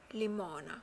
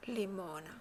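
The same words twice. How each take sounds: The two takes are said the same way.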